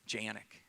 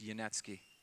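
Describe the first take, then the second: First: The name is said the American way. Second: The name is said the original way. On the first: The speaker calls it wrong. "I said it the American way" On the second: The speaker calls it right. "No, it's Yanetsky"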